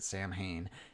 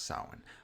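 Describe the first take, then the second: First: The word is said as 'Sam Hain', as spelled. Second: The word is said the standard way. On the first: The speaker calls it wrong. "they pronounce it Sam Hain in this movie" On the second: The speaker calls it right. "I know it's pronounced Samhain"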